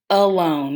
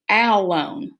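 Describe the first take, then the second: First: The first vowel is a muffled schwa sound. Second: The first vowel is a short a sound. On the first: The speaker calls it right. "our schwa sound, which is that muffled sound" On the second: The speaker calls it wrong. "maybe it's the short A"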